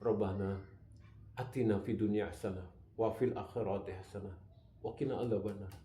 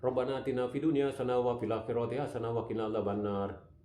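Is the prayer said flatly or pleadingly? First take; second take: pleading; flat. First: It is said pleadingly, with heartfelt hope. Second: It is recited flatly, like mechanical reading. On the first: The speaker is truly asking with hope. The speaker calls it right. "Harusnya kan" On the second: The words are merely read, not truly prayed. The speaker calls it wrong. "dibaca dengan seperti itu, itu namanya dia bukan berdoa, tapi membaca doa"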